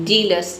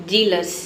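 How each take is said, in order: The two takes are said the same way.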